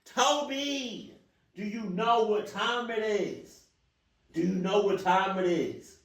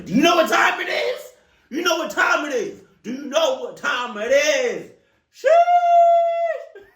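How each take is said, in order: First: Quieter mock scolding. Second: High, loud shouting through a laugh; furious shout. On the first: Same question again, to Toby. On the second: Pretend. Yelling at the stranger knocking on the window, loud and high. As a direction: blast it at the guy knocking.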